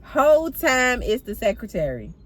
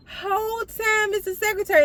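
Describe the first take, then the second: First: Said in the usual way. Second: Very high, mock-incredulous squeal; high-pitched reveal. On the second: Storyteller revealing the culprit to viewers, high-pitched comic disbelief. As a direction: repeat it way up high for comic effect.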